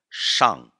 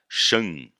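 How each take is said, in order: First: The vowel is an open a sound. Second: The vowel is nasalized like Portuguese an. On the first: The speaker calls it right. "Esse A é aberto" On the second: The speaker calls it wrong. "Se a gente lê de forma abrasileirada"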